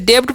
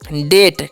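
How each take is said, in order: First: A b-like sound is heard before the t. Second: No b sound is heard before the t. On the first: The speaker calls it wrong. "इसे डेप्ट पढ़ेंगे नहीं" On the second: The speaker calls it right. "इसे पढ़ना है डेट"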